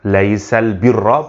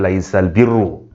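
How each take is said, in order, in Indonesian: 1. Kata terakhir berakhir dengan vokal 'a'. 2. Kata terakhir berakhir dengan vokal 'u'. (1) "dibaca dengan fathah" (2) "tidak dibaca dengan dhammah"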